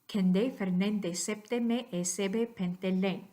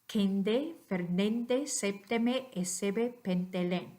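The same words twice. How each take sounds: First: The phrase is spoken at natural speed. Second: The phrase is spoken slowly. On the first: "more natural speed" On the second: "slowly first"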